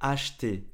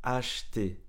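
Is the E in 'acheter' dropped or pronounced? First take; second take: dropped; dropped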